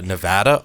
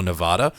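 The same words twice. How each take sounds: First: Nevada with a short flat A, Ne-VAD-a; alternative pronunciation. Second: Nevada with a long open A, Ne-VAH-da; alternative pronunciation. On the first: Host citing a TV debate, Nevada pronounced Ne-VAD-a. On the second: Host citing a TV debate, Nevada pronounced Ne-VAH-da. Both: Shown as a demonstration. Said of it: "debate about whether you pronounce Nevada".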